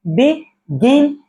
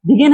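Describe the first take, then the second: First: begin slowly in two beats, बि... गिन; split into syllables. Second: Said in the usual way. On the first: Shown as a demonstration. Teacher showing it takes two beats, begin split as बि... गिन. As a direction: pause between बि and गिन in begin. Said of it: "इसको दो बार".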